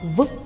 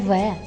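First: It is said as a short bare sound. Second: It is said as the full letter name. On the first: The speaker calls it right. "озвучуємо її як звук" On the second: The speaker calls it wrong. "не В"

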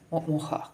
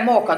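First: The middle consonant is a breathy h sound. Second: The middle consonant is a hard k sound.

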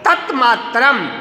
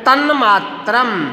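First: The first word ends with a t sound. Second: The first word ends with an n sound.

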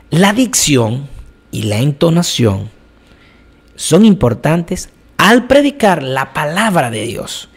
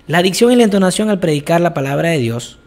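First: The sentence has pauses and varied pitch for emphasis. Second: The sentence is said evenly, without marked pauses. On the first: The speaker calls it right. "Estoy utilizando pausas, estoy utilizando diferentes tonalidades en mi voz para darle cierto énfasis" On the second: The speaker calls it wrong. "no es lo mismo decir"

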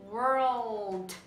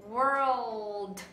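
Both takes have the same delivery.

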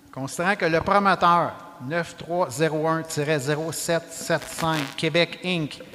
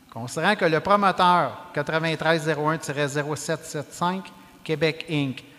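No difference in how they are said.

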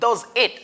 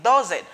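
First: The two words are said separately. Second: The two words are linked together. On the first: The speaker calls it wrong. "I don't say does it" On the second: The speaker calls it right. "I try to link the first word with the second one"

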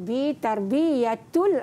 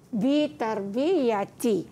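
First: The word ends with an -ul sound. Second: The word ends with an -i sound. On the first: The speaker calls it wrong. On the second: The speaker calls it right.

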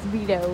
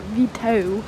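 First: The name is said plainly, without extra emphasis. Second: The name is said with exaggerated, dramatic emphasis. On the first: The speaker calls it right. "His name is just Vito" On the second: The speaker calls it wrong. "you want to add emphasis to what it is"

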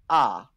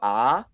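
First: The pitch falls across the syllable. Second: The pitch rises across the syllable. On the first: "ah is falling" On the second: "ah is rising"

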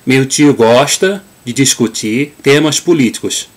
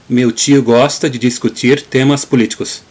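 First: It is said in a northeastern Brazilian accent. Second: It is said in a southern Brazilian accent. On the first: "a way that a Northeast person would say, nordestino" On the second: "using the Gaúcho pronunciation or Southern pronunciation"

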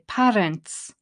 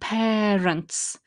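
First: The first vowel is not an air sound. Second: The first vowel is an air sound. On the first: The speaker calls it wrong. "People tend to say parents" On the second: The speaker calls it right. "that air sound"

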